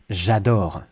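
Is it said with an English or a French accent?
French. The vowels are full, with a French sound. I love it. The speaker calls it right. "I love, j'adore"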